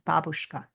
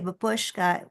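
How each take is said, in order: First: It is pronounced the Russian way. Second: It is pronounced the English way. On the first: It refers to a grandmother. The speaker calls it right. "the real pronunciation in Russian is babushka" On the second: It refers to a headscarf. The speaker calls it wrong. "When we say babushka, we just mean the scarf"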